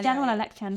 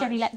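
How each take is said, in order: First: The phrase is said with every syllable in full. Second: The phrase is squashed into a short clipped form.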